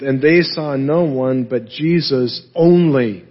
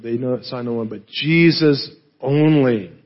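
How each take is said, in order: First: Said in the usual way. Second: "only" set apart after a pause; stress on ONLY. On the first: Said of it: "the account ends with". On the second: Shown as a demonstration. Preacher showing what the Greek emphasizes, stress on "only". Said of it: "the Greek emphasizes that word".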